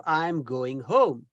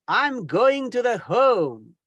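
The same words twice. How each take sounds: First: Slow, low, careful "I'm going home"; slow correct example. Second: Slow, drawn-out I'm going to the home; slow wrong example. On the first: Teacher modelling the correct phrase slowly, low. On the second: Teacher slowly mocking a learner's wrong phrase. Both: Shown as a demonstration. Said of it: "instead of".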